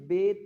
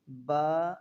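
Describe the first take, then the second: First: The letter name is said in an Urdu style. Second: The letter name is said in an Arabic style. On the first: The speaker calls it wrong. "Urdu तलफ़्फ़ुज़ ... नहीं पढ़ेंगे" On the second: The speaker calls it right. "अरबी लहजा में अदा करें"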